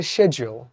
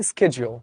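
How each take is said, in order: First: শিডিউল as "shed-jool", with a sh sound; British pronunciation. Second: শিডিউল said American, starting with "sked"; শিডিউল as "sked-jool", with a hard k; American pronunciation. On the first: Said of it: "ব্রিটিশরা বলে". (শিডিউল British উচ্চারণে, শুরুতে "শেড") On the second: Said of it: "আমেরিকানরা কি বলে?". (শিডিউল American উচ্চারণে, শুরুতে "স্কেড") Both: Shown as a demonstration.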